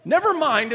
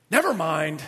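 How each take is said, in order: First: High, louder NEVER with a falling end; condescending never mind. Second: Weary never mind. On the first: Spouse ending argument, condescending high never mind. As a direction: talk down to them. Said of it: "another way of saying you're too stupid". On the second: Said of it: "this one I've thought about". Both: Retold or imitated.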